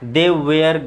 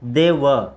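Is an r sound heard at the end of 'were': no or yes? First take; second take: yes; no. First: 'Were' ends with an audible r sound. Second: 'Were' ends without any r sound. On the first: The speaker calls it wrong. "बहुत सारे लोग वेयर ही पढ़ते हैं ... but गलत है" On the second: The speaker calls it right. "वेयर नहीं पढ़ के इसको क्या पढ़ते हैं, दे व"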